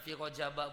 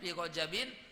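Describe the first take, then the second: First: The word ends with a short a vowel. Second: The word ends with the sound in. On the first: The word is treated as not taking nunation. "Dibaca Rajaba, baca fathah" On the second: The word is treated as taking nunation. "maka dibacanya fi Rajabin"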